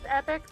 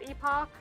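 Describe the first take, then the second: First: The second syllable sounds like 'ick'. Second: The second syllable sounds like 'ock'. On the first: This is believed to be the standard pronunciation. "I'm pretty sure it's pronounced epic" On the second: This pronunciation feels more exciting. "it's more exciting to pronounce it epoch"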